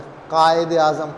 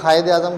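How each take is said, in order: First: कायद Azam opened with a deep-throat q stop; qaf sound. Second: कायद Azam said as khayed-e-azam, with throaty fricative kh; kh instead of qaf. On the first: Shown as a demonstration. Teacher giving an example of Urdu qaf, back q stop. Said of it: "काफ किसी और ज़ुबान में नहीं है". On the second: Retold or imitated. Teacher imitating how people often say it, fricative kh. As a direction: swap the q in कायद for a rasped kh. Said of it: "अक्सर लोग कायद आज़म कहते हैं".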